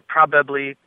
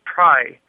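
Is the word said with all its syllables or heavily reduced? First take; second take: full; reduced. First: All three syllables are pronounced in full. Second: It is squeezed down to one short syllable.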